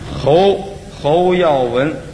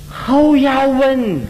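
First: The name is said with a plain Chinese accent. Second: The name is said with a foreign accent.

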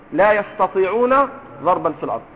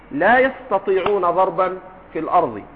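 Both takes have the same delivery.

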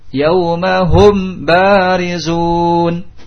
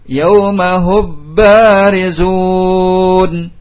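First: The m is pronounced clearly before the b. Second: The m is fully merged into the b. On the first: "Ini izhar mim" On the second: "Atau tidak idgham ke ba"

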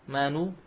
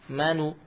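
No difference in how they are said.

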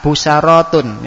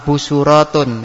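First: An a vowel comes right after the s. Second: A u vowel comes right after the s. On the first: "Di fathah" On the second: "bacaan pertama yaitu didoma"

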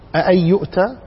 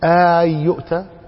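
First: A second, softened hamza follows the first one. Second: The opening vowel is drawn out long. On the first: "لكن بتخفيف الهمزة الثانية" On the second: "أو اعتبرها مد"

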